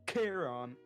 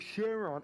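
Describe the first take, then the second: First: The name begins with a hard k sound. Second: The name begins with an sh sound. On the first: The speaker calls it right. "you don't say C H, C H as sh, you say Charon" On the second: The speaker calls it wrong. "And he was like, oh, Sharon"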